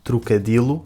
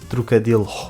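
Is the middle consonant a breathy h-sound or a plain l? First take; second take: plain l; breathy h. First: The middle consonant is a plain l sound. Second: The middle consonant has a breathy h sound. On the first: "ignorar o H dizendo trocadilo" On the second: "pronunciá-lo de forma aspirada dizendo trocadilho"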